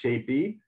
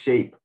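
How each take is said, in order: First: The word ends with an added vowel sound. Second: The word ends cleanly on the final consonant. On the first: The speaker calls it wrong. "not shapey" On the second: The speaker calls it right. "but shape"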